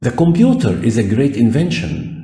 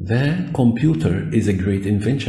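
First: Slow, spaced English; teacher modelling; slow example sentence. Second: Slightly slow, ending on a rise; careful classroom repeat. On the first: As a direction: read the example slowly. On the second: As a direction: model it again. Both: Shown as a demonstration. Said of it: "يبقى أنا حددته هنا".

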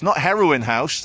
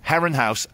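First: "Heroin" said as the drug, HEH-roh-in; wrong name. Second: "Heron" as the bird, two syllables HEH-run; correct name. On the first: Vlogger jokes about the building's name, "Heroin" like the drug. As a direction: joke on "Heroin" as the drug word. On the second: Vlogger corrects the building's name, "Heron" like the bird. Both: Shown as a demonstration. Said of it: "This is Heron, the bird".

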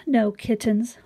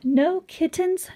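First: Said in the usual way. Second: Excited exclamation. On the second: Pretend. Reading the surprise ending.

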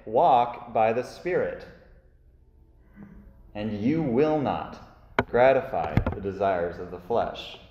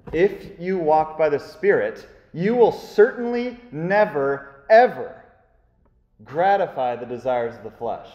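First: Said in the usual way. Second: "never, ever" punched high and loud, slowed; stress on never ever. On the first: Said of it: "So I say". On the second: Shown as a demonstration. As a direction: hammer "ever" hardest. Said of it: "it's emphatic".

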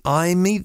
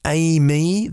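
First: "aime" as EYE-mee, higher and rising; alternative pronunciation. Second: "aime" as AY-mee, higher and rising; trial pronunciation. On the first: Host tries another version of the car's name, alternative pronunciation. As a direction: try "aime" with an EYE first syllable. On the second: Host unsure of the car's name, trial pronunciation. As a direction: try "aime" as AY-mee with a questioning lift. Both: Shown as a demonstration. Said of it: "Do I pronounce it".

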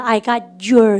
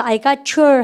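First: Said in the usual way. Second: I got your linked smoothly, got your run together as gatchu; linked sounds. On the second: Shown as a demonstration. Teacher shows the class how I got your links up. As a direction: join the words: I got your, said as one word. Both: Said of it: "연음하셔서".

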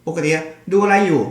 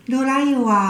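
First: Said in the usual way. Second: Put-on sweet voice for kids. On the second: Shown as a demonstration. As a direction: ask it the way you talk to a toddler. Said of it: "พอคุยกับเด็ก".

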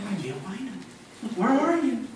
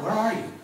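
First: A puzzled, higher seeker who truly can't find them; mock lost searcher. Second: God calling out into the garden; a raised call to find them. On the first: God not searching helplessly, mock puzzled call. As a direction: play God as lost, mildly hammed up. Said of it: "it's not like he was walking through the garden going". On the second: Retold or imitated. God calls out to Adam and Eve, a raised searching call. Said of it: "And he calls out".

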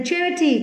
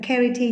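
First: "charity" starting with "ch" as in chair; ch sound. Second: "charity" wrongly said as "kerity"; mistaken k sound. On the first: Teacher modelling charity for students, ch sound. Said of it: "phiên âm là chờ nhá". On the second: Teacher showing students the wrong reading, hard k. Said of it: "không phải là charity nhá". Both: Shown as a demonstration.

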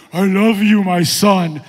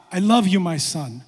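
First: Very loud, drawn-out voice of God; mock-thunderous heavenly proclamation; booming voice from heaven. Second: Gentler fatherly declaration, no boom; lightly voiced divine tenderness; God's voice. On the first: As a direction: boom it out like God from the sky. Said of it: "this booming voice from heaven". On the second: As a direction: say it simply, as a loving God. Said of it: "Here's God".

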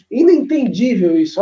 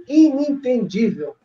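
First: Said in the usual way. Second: Inentendível drawn out slowly, every syllable; slow stress on Inentendível. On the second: Shown as a demonstration. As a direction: say Inentendível slowly, showing off the word. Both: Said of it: "olha o adjetivo que eu tô criando".

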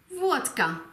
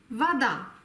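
First: Wodka with a clear stressed O; Wodka, stress and full O on the first syllable; stressed O in vodka. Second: Unstressed O said as open A; Russian vada. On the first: Teacher contrasts Wodka with its full O. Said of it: "Hier liegt die Betonung auf dem O". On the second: Teacher shows Wada with open A. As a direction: Wada with an open A, stress on the last A. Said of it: "spricht man das O als offenes A aus". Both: Shown as a demonstration.

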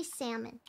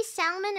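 First: "salmon" with no L, SAM-un; silent L. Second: "salmon" with the L sounded, SAL-mun; L pronounced. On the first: Player giving own way to say it, "salmon" with silent L. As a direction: drop the L in "salmon". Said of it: "I say salmon". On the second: Player comparing two ways to say it, "salmon" with a spoken L. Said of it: "Do you say salmon or salmon?". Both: Shown as a demonstration.

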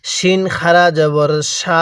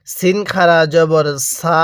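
First: Slow, with a thick "sh" opening the final "সা"; thick sh sound, vowel stretched; thick sheen. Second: Slow, with "সা" a thin whistled s, held long; thin s in "সা", vowel stretched; thin seen. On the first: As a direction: make "শিন" a full sh and hold "sha" long. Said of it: "শিনের উচ্চারণটা অনেকটাই মোটা আকারে হবে". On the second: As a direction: keep the s of "সিন" and "সা" thin and fine. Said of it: "সিনের উচ্চারণটা অনেকটাই চিকন আকারে হবে". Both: Shown as a demonstration.

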